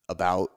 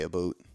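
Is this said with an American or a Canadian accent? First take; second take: American; Canadian. First: Said with an American accent. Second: Said with a Canadian accent.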